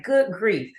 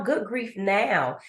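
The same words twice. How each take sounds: First: "Good grief." sighed out, both words leaned on as a fed-up exclamation; weary "Good grief." with weight on "grief"; exasperated good grief. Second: "good grief now" said slowly, each word given weight like a name; slow, deliberate "good grief now" with stress on "good"; good grief now, hopeful. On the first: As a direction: say "Good grief." like an annoyed old complaint. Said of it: "that accent and tone on grief". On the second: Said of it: "No, good grief now". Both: Shown as a demonstration.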